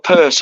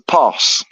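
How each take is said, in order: First: It is said in a standard accent. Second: It is said in a broad local dialect.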